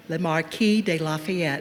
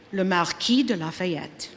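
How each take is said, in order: First: "le Marquis de Lafayette" anglicized, /lə mɑɹki deɪ lɑfiɛt/ with an American r; "Marquis" with an American r and "Lafayette" as la-fee-ET; American pronunciation. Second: "le Marquis de Lafayette" said the French way, /lə maʁki də lafajɛt/ with a uvular r; "Marquis" as mar-KEE with a French throat r, "Lafayette" as la-fa-YET; French pronunciation. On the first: English interpreter repeats the name. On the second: French and English speakers alternate. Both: Acted.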